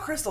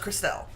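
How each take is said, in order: First: The name ends with a short 'tul' sound. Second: The name ends with a clear 'ell' sound. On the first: The speaker calls it wrong. "that's not Crystal" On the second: The speaker calls it right. "E L L E makes L"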